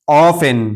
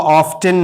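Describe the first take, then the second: First: Often said as "off-en"; silent T. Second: Often said as "off-ten"; wrongly sounded T. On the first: Teacher repeats the word for learners, often with silent T. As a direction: drop the T from often. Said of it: "बल्कि टी silent". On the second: Teacher shows learners what to avoid, often with T sounded. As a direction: pronounce the T in often. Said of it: "इसको often नहीं पढ़ेंगे". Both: Shown as a demonstration.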